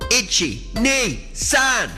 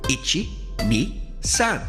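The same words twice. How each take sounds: First: The counting is spoken as loud as possible. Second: The counting is spoken somewhat louder. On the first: "as loud as we can" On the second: "a little louder"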